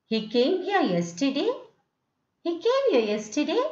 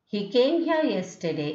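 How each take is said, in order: First: He came here yesterday with the tune rising high at the end; question tune. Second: Falling statement tune on He came here yesterday. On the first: Teacher to class, turning the statement into a rising question. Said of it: "I'm rising the tone and making it a question". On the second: Teacher to class, showing a statement with a falling tune. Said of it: "is a statement". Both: Shown as a demonstration.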